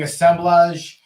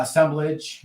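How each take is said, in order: First: Assemblage with a light European accent, ending in -blahzh. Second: Said in the usual way. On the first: Real, not acted. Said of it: "put a European accent on it". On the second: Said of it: "I don't know why I sounded".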